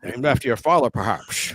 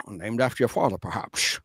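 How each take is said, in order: First: Low, dry Scottish purr fading to a hush; deadpan Connery line, dropping low and soft; Sean Connery impression. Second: Low Scottish purr fading to a breathy hush; Sean Connery impression. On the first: Host doing Sean Connery's Scottish quip. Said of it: "I just love Sean Connery when he goes". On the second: Host redoing Sean Connery's quip on request. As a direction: drop low and dry, end almost unvoiced. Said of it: "Do it again".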